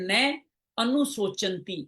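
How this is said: It is said as two separate words. The speaker calls it right. "इसमें दो वाक्य"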